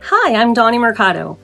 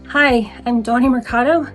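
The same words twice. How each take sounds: First: It is said with lively, confident energy. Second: It is said flatly, with low energy.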